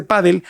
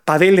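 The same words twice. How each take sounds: First: Said in the usual way. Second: "padel" stressed on the last syllable; "padel" with the stress moved to the end; foreign stress. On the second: Retold or imitated. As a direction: say "padel" as pa-DELL. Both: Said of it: "pronunciado con otro acento la palabra pádel".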